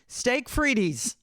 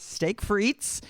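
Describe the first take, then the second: First: Frites is stretched into two syllables. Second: Frites is said as one syllable. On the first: The speaker calls it wrong. "I kept saying steak frities" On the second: The speaker calls it right. "It's steak frites"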